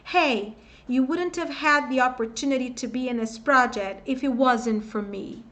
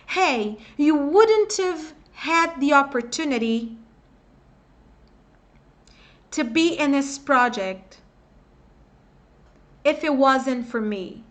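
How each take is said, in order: First: The sentence is said at a normal, faster pace. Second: The sentence is said more slowly, words linked.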